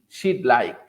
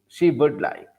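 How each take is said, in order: First: 'Would' is shortened to a 'd' sound. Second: 'Would' is pronounced as a full word. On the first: The speaker calls it right. "They simply use the apostrophe D" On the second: The speaker calls it wrong. "People do not say would"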